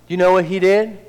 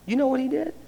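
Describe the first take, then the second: First: It is said a little louder. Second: It is said quietly and low.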